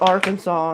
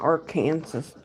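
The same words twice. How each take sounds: First: The word ends with a 'saw' sound. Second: The word ends like the word 'Kansas'. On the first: This is the name's actual pronunciation. "Why is it called Arkansas" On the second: This is how the spelling suggests it should sound. "and not Arkansas? Literally, the state Kansas is in Arkansas"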